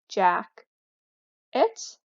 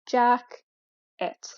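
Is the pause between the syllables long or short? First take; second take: long; short. First: There is a long pause between the syllables. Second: There is a short pause between the syllables. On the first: The word is harder to guess. "Rather than saying" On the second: The word is easier to guess. "having a shorter pause in between the syllables"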